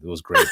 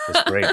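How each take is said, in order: First: Said in the usual way. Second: Great said much higher, squeaky with delight; high-pitched gushing repeat; excited squeal. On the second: Real, not acted. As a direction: squeal it out happily.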